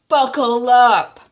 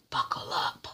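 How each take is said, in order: First: Slow, loud, higher menacing call; loud threat. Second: Unvoiced menacing whisper; whispered threat. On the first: Retold or imitated. Hadisa leaving, booming a slow threat at TY. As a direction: boom the warning as you go. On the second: Hadisa leaving, whispering a threat to TY. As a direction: hiss it low as a warning.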